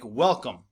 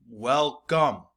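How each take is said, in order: First: Said in the usual way. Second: Syllable by syllable. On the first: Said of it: "two-syllable words like welcome". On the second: Shown as a demonstration. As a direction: welcome split into WEL-COME. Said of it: "two-syllable words".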